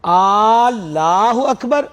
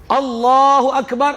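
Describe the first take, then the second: First: اللہ اکبر with the first a stretched long, very slowly; wrong lengthened recitation; drawn-out alif. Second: اللہ اکبر with a short opening a; proper takbir; correct takbir. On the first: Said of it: "اگر اس کو یوں پڑھا". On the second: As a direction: say اللہ اکبر crisply without stretching. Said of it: "اللہ سب سے بڑا ہے". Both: Shown as a demonstration.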